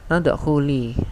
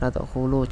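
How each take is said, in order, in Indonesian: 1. Kata ini diakhiri dengan vokal i. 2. Kata ini diakhiri dengan vokal u. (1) "kenapa di sini harokatnya kasrah" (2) "juga salah"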